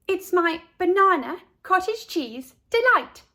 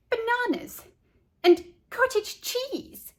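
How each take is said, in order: First: Put-on proud girl. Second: Disgusted disbelief. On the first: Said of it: "said Carla". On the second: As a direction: drag it out in pure disbelief. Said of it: "sticking out her tongue". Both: A narrator's reading.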